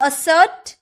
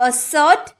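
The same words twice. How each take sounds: No difference in how they are said.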